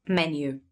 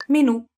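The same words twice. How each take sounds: First: "Menu" with the stress on the first syllable, MEN-yoo; English stress on the start. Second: "Menù" with the stress on the final ù, said high and loud; Italian stress on the end. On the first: Teacher giving the English "Menu", stressed on the first syllable. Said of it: "in English you say menu". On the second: Teacher showing the Italian stress of "Menù" with a high, loud final ù. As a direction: punch the last syllable of "Menù", me-NU, high and loud. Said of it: "in Italian you say menù". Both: Shown as a demonstration.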